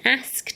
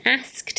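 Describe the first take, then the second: First: It is said with a northern accent. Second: It is said with a northern accent.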